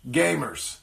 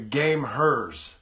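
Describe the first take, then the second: First: It is said as the plain word 'gamers'. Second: It is said as 'game' plus 'hers'. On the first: The speaker calls it right. "it's actually pronounced gamers" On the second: The speaker calls it wrong. "I have been calling it the gameHERs for the entire time"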